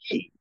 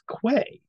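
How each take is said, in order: First: It is pronounced 'key', with no w sound. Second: It is pronounced 'kway', with a w sound. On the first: The speaker calls it right. "It's not, it's key" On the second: The speaker calls it wrong. "I always pronounced it as quay"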